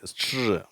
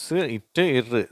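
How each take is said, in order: First: "ஸ்ட்ரு" as one soft blended str; sounds merged. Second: "ஸ், இட்டு, இரு" one sound at a time; sounds separately. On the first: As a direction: run s, t, r together in "ஸ்ட்ரு". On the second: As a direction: break s, t, r apart in "ஸ், இட்டு, இரு". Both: Shown as a demonstration. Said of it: "இது மூணும் சேருது".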